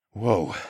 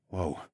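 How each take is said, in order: First: Said in the usual way. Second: Startled hush. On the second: A narrator's reading. Narrator catches herself mid-thought.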